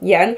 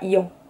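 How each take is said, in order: First: The name is pronounced like 'Yann'. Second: The name is pronounced like 'Ian'. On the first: The speaker calls it right. "Je pense que ça se dit Yann" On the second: The speaker calls it wrong. "je pense qu'on dit pas Ian"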